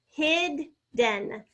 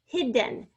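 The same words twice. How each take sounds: First: "hidden" broken in two, hid, pause, den; "hidden" slowly, each syllable separate; split into syllables. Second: Said in the usual way. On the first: Shown as a demonstration. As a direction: sound out "hidden" with a D in each half. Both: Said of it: "We're doubling the D".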